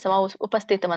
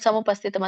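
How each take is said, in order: First: The word is split into two separate parts. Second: The word is joined into one continuous form. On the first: "ಸಮ ಉಪಸ್ಥಿತಂ ಅಂತ ಬರುತ್ತೆ" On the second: "but ಸಮುಪಸ್ಥಿತಂ ಅಂತ ಕೂಡ ಹೇಳಿ"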